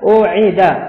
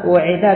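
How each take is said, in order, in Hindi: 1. यह शब्द glottal stop (Hamza) से शुरू होता है। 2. यह शब्द w की आवाज़ से शुरू होता है।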